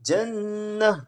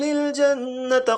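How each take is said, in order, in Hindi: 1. शब्द का अंत एक हल्की h आवाज़ से होता है। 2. शब्द का अंत t की आवाज़ से होता है, जो आगे जुड़ती है। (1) "जब हम यहाँ पे वक्फ करेंगे ... तो दिस विल बिकम जन्नह" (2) "अगर आप मिला के पढ़ रहे हैं पूरा तो दिस ता विल रिमेन ता"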